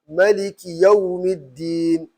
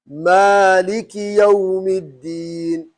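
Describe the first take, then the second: First: The first vowel is short: maliki. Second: The first vowel is long: maaliki. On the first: This follows the Warsh reading. "It's not wrong because I'm reading Warsh" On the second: This follows the Hafs reading. "That's the right way to pronounce when you are reading what? Hafs"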